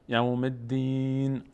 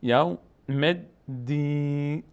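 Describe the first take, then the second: First: یوم الدین with a long held "deen", closed on a bare n; final sukun. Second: یوم الدین slowly sounded out, ending in an audible "ne"; final kasra voiced. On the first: Teacher stops on the verse ending, final sukun. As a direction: stretch the last syllable of یوم الدین and drop the final vowel. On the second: Teacher points out the kasra on nun, final vowel voiced. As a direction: say یوم الدین in slow pieces with a short e after the n. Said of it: "اینجا کسره داره نون". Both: Shown as a demonstration.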